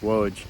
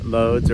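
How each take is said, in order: First: The name begins with a W sound. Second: The name begins with an L sound.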